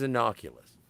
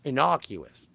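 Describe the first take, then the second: First: Innocuous slipped into "innoculous"; stumbled pronunciation. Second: Said in the usual way. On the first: Real, not acted. Podcaster fumbling the word Jules would use, innocuous mispronounced as "innoculous". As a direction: say innocuous with a stray L, "in-NOCK-yuh-lus". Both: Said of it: "That's the word. Thank you, Steve".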